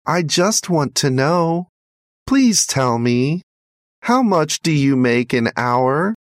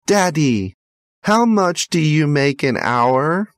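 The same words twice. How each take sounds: First: Put-on high child's voice, a mild plea; pleading boy. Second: Put-on high child's voice, innocent question; curious little boy. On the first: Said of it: "pleaded the little boy". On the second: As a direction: ask like a small boy who wants to know. Boy asks father's wage.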